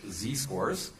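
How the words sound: The letter Z is said the American way. "in American English"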